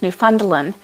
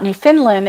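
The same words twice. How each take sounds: First: "Newfoundland" as new-FUND-lin; "Newfoundland" with the middle like "fund"; Newfundlin. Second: "Newfoundland" as new-FIND-lin with short i; "Newfoundland" with the middle like "fin"; Newfinlin. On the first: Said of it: "it's Newfoundland". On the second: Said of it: "it's not Newfoundland". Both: Shown as a demonstration.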